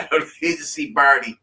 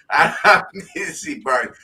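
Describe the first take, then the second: First: Said in the usual way. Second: Says it again through a laugh; laughing insistence. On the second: Real, not acted. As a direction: repeat it, laughing.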